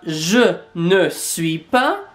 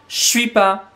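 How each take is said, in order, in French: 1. Le petit mot 'ne' est bien prononcé. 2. Le petit mot 'ne' est omis. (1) "ils vont pas dire euh" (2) "c'est plutôt"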